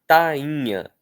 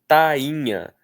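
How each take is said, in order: Both takes have the same delivery.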